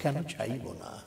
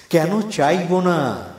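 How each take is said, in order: First: Slow, much softer recited line; hushed poem refrain. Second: Loud, high, very drawn-out declamation; ringing poem refrain. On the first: Poet nears the end of the poem, hushed and slow. Soft refrain before climax. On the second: Poet's climactic question to the listeners, ringing out loud. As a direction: swell the refrain into a loud, slow cry. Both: Acted.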